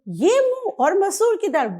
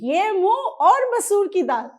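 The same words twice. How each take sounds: First: It is said in an impressed, wow-like tone. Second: It is said in a plain, dismissive tone. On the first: The speaker is impressed by something. "थोड़ा-सा लहज़ा बदल के बोलेंगे, वाव वाला" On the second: The speaker doubts someone deserves something. "हमेशा कहा जाता है"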